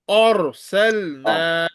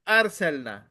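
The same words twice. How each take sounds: First: The r sound is heavy and thick. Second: The r sound is light and thin. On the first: The speaker calls it right. "Ra is thick" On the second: The speaker calls it wrong. "You will not recite it as arsalna"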